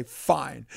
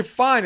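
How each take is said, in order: First: Said in the usual way. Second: Louder fine. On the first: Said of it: "I just say". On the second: Retold or imitated. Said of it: "when I say".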